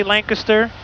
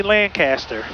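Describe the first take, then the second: First: Lancaster as LANK-uh-ster; one usual variant. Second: Lancaster as LAN-CASS-ter; other usual variant. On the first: Pilot admitting he says it both ways, Lancaster as LANK-uh-ster. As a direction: say Lancaster with a swallowed middle syllable. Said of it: "Sometimes I say Lancaster". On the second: Pilot admitting his other habit, Lancaster as LAN-CASS-ter. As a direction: say Lancaster with a full CAST. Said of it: "sometimes I say Lancaster". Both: Shown as a demonstration.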